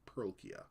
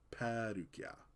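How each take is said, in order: First: It is said with an English pronunciation. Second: It is said with a Japanese pronunciation. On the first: "not not Pearlkia" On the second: "because of Japanese pronunciation"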